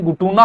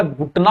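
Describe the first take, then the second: First: घुटना with extra u, ghu-tu-naa; wrong pronunciation. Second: घुटना as ghut-naa, no second u; correct pronunciation. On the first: Teacher showing the mistake, mispronounced demo. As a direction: say घुटना in three syllables, u after ट. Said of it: "घुटना नहीं होता". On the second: Teacher giving the correct word, careful pronunciation. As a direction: say घुटना in two syllables. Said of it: "घुटना होता है". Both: Shown as a demonstration.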